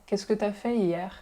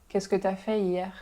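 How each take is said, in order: No difference in how they are said.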